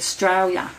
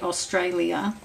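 First: It is said with a broad Australian accent. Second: It is said with a less Australian, English-tinged accent. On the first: This is how native Australians say it. "they'll say Australia" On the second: The speaker still carries traces of an English upbringing. "I'll say Australia"

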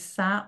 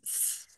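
First: The consonant is followed by an added vowel. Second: The consonant is said alone, with no vowel. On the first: The speaker calls it wrong. "They're not going sa or anything else" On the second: The speaker calls it right. "It's s"

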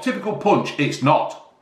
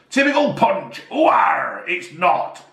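First: It is said in his normal voice. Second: It is said in a put-on pirate voice.

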